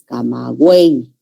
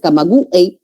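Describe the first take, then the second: First: The main force is on the E. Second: The main force is not on the E. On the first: The speaker calls it right. "la E es la que tiene mayor fuerza" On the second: The speaker calls it wrong. "no es camagüey"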